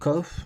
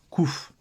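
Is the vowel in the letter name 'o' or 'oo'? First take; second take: o; oo. First: The vowel is an 'o' sound. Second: The vowel is an 'oo' sound. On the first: "Moi je dis lettre cof" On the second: This is the common modern Israeli name. "en Israël, maintenant la lettre se prononce kouf"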